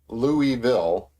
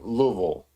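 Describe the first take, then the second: First: The name is said with fuller, clearer syllables. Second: The name is said lazily, with syllables slurred together. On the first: "I used to say" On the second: "Just kind of lazily say it"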